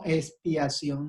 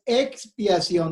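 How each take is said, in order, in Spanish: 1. Empieza con un sonido s simple después de la e. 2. Empieza con el sonido ks después de la e. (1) "no de espiar" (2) "La palabra es expiación"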